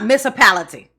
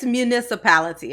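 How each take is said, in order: First: The word is pronounced in a distorted way. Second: The word is pronounced in the standard way. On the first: The speaker calls it wrong. "it's not municipality" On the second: The speaker calls it right. "It's municipality, okay?"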